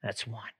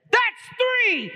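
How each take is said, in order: First: Low, soft, menacing count; quiet warning. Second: High, loud, explosive count; angry scream. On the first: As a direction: drop low and quiet as a restrained threat. Groom coldly counts the horse's offense. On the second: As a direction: scream the final count as the fed-up groom. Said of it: "He screams and he says". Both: Acted.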